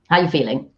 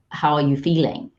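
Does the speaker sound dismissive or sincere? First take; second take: dismissive; sincere. First: It is said quickly and offhandedly, sounding dismissive. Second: It is said fully and warmly, sounding sincere. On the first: The speaker does not really care about the answer. The speaker calls it wrong. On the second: The speaker genuinely wants to know the answer. The speaker calls it right.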